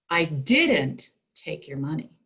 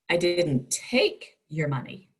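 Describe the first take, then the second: First: The stress is on the word didn't. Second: The stress is on the word take.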